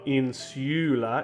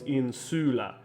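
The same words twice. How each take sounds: First: The u is said with a y sound, 'yoo'. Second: The u is a short 'oo' without y. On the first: The speaker calls it wrong. "it's not insula" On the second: The speaker calls it right. "it's insula. ... a short U ... without the y sound"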